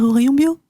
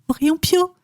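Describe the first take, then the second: First: The last word starts with a soft B sound. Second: The last word starts with a hard P sound. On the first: The speaker calls it right. "tu peux parler avec une petite voix douce et dire au rayon bio" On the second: The speaker calls it wrong. "Ça m'a énervé"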